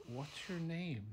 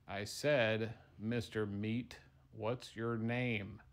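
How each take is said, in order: First: Said in the usual way. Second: Slow insistent repeat. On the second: Acted. Fry repeats question to dumb meatball.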